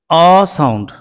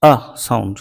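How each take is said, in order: First: আ held long and louder; long, fuller আ; long a sound. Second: Soft, low আ; quiet low আ; schwa sound. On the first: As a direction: stretch the আ. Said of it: "এটি long আ". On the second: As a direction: say আ as a lowered schwa. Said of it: "ই produces". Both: Shown as a demonstration.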